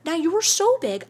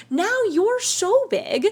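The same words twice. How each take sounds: First: Said in the usual way. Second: Now you're so big, drawn out slowly with so held long; stretched emphasis. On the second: Shown as a demonstration. Reassuring the viewer she has grown big, slow stress on so.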